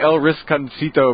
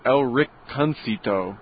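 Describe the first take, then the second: First: The middle of the name has an s sound. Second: The middle of the name has no s sound. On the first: The speaker calls it wrong. "I say El Risconcito" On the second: The speaker calls it right. "I think it's El Ricconcito. There's no R. There's no S"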